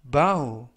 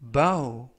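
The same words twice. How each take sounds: Both takes have the same delivery.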